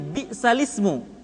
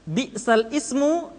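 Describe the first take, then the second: First: The vowel joins onto the preceding lam, no stop. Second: The glottal stop before ismu is pronounced separately. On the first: This is how the words are recited. "memindahkan harokat hamzah ke huruf sukun sebelumnya" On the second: This is the original form of the words. "Kalimatnya asalnya bi'sal ismu"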